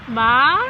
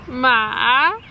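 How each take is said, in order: First: The pitch rises like a question. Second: The pitch dips down and then rises. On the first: "the second tone is is it's almost like a question" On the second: "it goes down and then up higher"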